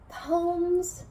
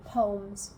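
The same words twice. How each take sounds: First: "Poems" held high and drawn out; playful announcement. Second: Said in the usual way. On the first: Real, not acted. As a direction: announce "Poems" in a raised, stretched voice. Playfully announces the segment, then repeats it.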